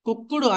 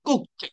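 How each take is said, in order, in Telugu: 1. చివరి భాగం అదనపు అక్షరంగా పలకబడుతుంది. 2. చివరి భాగం చిన్న t శబ్దం.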